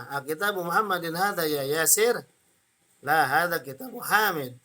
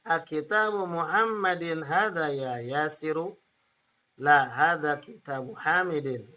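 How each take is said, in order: First: Yasir and Hamid stopped on the consonant; final vowels dropped. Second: Yasiru and Hamidin with endings sounded; full final vowels. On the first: Teacher shows what experienced readers may do, endings dropped. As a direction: read Yasir without -u, Hamid without -in. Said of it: "nggak usah dibaca nggak apa-apa". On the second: Teacher models reading practice with intonation, full final vowels. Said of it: "Boleh dibaca harokat belakangnya". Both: Shown as a demonstration.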